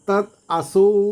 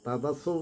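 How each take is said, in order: First: The two words are said separately with a t. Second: The words run together with a d sound. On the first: The speaker calls it right. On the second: The speaker calls it wrong.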